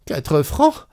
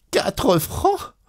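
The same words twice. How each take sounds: First: Startled, high-pitched disbelief; a sudden gasp of outrage at Quatre francs; shocked. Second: Much higher, squeaking with indignant disbelief; outraged disbelief. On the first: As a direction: jolt up at the price. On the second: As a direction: repeat it even higher, as if she can't believe it. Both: Acted. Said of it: "Elle eut un sursaut".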